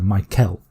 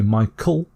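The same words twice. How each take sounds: First: The second vowel is a clear eh sound. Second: The second vowel is a weak uh sound. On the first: "you could also just say the eh sound" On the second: "which might be with the uh sound"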